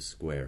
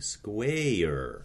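First: The vowel is said smoothly as one syllable. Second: The vowel is stretched into two syllables with twang.

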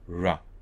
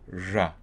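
First: The r is an open, smooth approximant. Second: The r is tighter, with the tongue closer. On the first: "let me just model an alveolar approximant R" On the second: "if I got closer to the alveolar or post-alveolar position, keeping it voiced, I'd get"

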